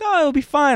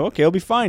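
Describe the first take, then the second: First: Much higher, louder, carefree friend; breezy reassurance. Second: Said in the usual way. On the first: Retold or imitated. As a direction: brush off the worry, pitched way up. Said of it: "And Claire was like". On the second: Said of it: "I'm like".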